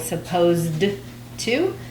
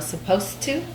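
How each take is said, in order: First: The d sound of 'supposed' is clearly pronounced. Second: The d sound of 'supposed' is dropped. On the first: "instead of saying supposed to" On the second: "they push supposed and then the T of the two together"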